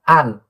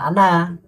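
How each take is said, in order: First: The word ends sharply on the n sound. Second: The word ends with an added vowel after n. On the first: The speaker calls it right. "itu an" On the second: The speaker calls it wrong. "itu bukan ana"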